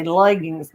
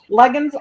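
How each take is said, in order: First: "Leggings" with the full -ing ending; imitated correction, "Leggings" with a proper -ings; correcting pronunciation. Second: "leggings" said as "leggins"; homely "leggings" ending in a plain n; country pronunciation. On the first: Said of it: "my kids laugh. They say". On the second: Shown as a demonstration. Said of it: "I call them leggings".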